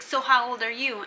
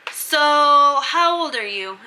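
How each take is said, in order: First: Said in the usual way. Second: Put-on louder, slow and higher "So how old are you?"; stern warden question.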